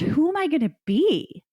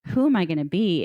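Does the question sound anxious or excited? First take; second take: excited; anxious. First: The question is asked in an eager, thrilled tone. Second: The question is asked in a worried, doubtful tone. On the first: The possibilities feel endless and exciting. The speaker calls it right. "change your tone" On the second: The future feels uncertain and daunting. The speaker calls it wrong. "It's not"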